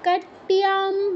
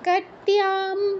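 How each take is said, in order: No difference in how they are said.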